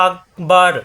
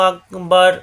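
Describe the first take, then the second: The two takes are said the same way.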